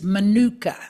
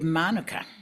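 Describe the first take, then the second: First: The word is said with Australian mispronunciation. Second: The word is said with Maori pronunciation. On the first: The speaker calls it wrong. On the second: The speaker calls it right.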